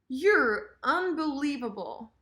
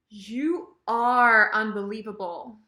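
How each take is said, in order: First: The verb is reduced into a quick "you're". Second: The verb "are" is said fully with emphasis.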